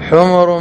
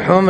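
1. الميم متبوعة بحركة الضم. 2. لا توجد حركة بعد الميم. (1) "وأما بالضم فهو جمع حمار" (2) "بالسكون"

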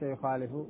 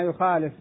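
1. تنتهي الكلمة بضمة قصيرة. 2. تنتهي الكلمة بحرف ساكن بلا حركة. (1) "وليس يخالف" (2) "بالجزم"

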